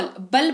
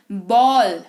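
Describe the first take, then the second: First: बल with a short "uh", like "bull"; wrong short vowel. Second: बॉल with a long rounded "aw"; correct long vowel. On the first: Teacher testing a wrong reading, short "uh". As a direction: clip the vowel of बल to "buhl". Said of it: "बल पढ़ा है कभी इसको?". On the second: Teacher correcting the reading, long "aw". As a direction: say बॉल as "bawl", vowel held. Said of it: "बॉल पढ़ते हैं". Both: Shown as a demonstration.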